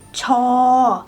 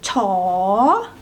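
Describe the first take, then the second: First: The tone stays level. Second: The tone rises.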